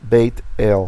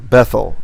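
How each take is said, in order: First: The consonant is a plain t sound. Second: The consonant is a th sound.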